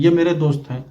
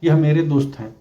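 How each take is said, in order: First: ये said as short ye; wrong form ये. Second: यह said fully as yah with a breathy h; correct form यह. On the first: Teacher quoting the commonly used wrong form. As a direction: start with ये pronounced ye, not yah. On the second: Teacher giving the correct form to viewers. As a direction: open with यह as yah, stressed. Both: Shown as a demonstration. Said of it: "जबकि कहना यह चाहिए".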